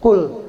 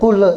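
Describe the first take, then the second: First: The word ends cleanly without a bounce. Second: The word ends with an echoing bounce. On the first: The speaker calls it right. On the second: The speaker calls it wrong.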